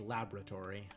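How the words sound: It is said with an American pronunciation.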